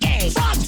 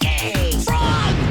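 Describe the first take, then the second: First: It is said at normal speed. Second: It is said very slowly.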